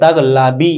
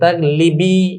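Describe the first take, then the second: First: The vowel after the 'l' is 'a'. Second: The vowel after the 'l' is 'i'. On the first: The speaker calls it right. "লামের জেরটাকে জবর দিয়ে তাগলাবি এভাবে বলি" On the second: The speaker calls it wrong. "দুইটা জের একত্রিত হওয়ার কারণে"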